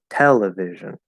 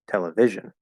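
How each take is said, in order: First: The strongest stress is on the first syllable. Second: The strongest stress is on the third syllable. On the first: The speaker calls it right. "We say television" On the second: The speaker calls it wrong. "If we put it on vi, it's going to be television"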